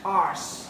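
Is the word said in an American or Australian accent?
Australian. It is said the Australian way, without an R.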